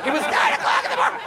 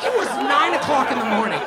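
First: Very high, rushed, scandalized squeal; shrieking mock outrage. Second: High, indignant exclamation; mock outrage. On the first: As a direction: shriek it fast in hammed-up disbelief. Repeats the outrage, escalated. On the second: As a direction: protest in a raised, scandalized voice. Outraged reaction to driver's question.

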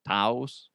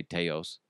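First: "Taos" said as one syllable rhyming with house; alternative pronunciation. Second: "Teos" said as TAY-ohs; first pronunciation attempt. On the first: Host correcting a New Mexico town name, "Taos" rhyming with house. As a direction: say "Taos" with an OW vowel. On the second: Host unsure of a New Mexico town, "Teos" as TAY-ohs. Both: Shown as a demonstration. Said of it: "I don't know if that's how you say".

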